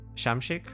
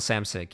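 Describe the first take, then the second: First: The name starts with an 'sh' sound. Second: The name starts with a plain 's' sound. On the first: It is a guess at the original way of saying the name. "Is it like Sam Shamshik or something?" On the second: It is an American way of saying the name. "I said Samsic because it's I'm this I'm American"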